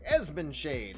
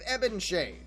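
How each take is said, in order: First: The name has an s sound before the b. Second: The name has no s sound before the b. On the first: The speaker calls it right. "is what it is" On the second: The speaker calls it wrong. "I still said it wrong"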